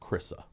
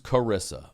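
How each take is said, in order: First: The name is said squeezed, in a Baltimore accent. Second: The name is said plainly, with every syllable. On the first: This is how one man in the story says it. "he's got a Baltimore accent, but he pronounces it Chrissa" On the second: This is the name's usual form. "her name's Carissa"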